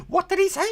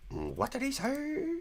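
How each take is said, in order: First: Very high squeak; much higher squeak; squeaky mock. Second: High, slow, softer squeak; softer, slower high squeak. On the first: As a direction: squeak the question. Mocking squeal reaction. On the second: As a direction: stretch it out high. Repeated higher, slower. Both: Real, not acted.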